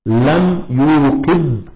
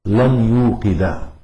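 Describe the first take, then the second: First: لم يوقد stretched slowly as lam yuuqid; لم يوقد slow, closed on a sukun; sukun ending. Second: لم يوقد said slowly as lan yuuqida; لم يوقد slow, with final fatha; accusative fatha ending. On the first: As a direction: stop يوقد on a vowelless "d". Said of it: "صار آخره ساكنا". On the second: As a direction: end يوقد on a sounded "a". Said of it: "وعلامة نصبه الفتحة". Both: Shown as a demonstration.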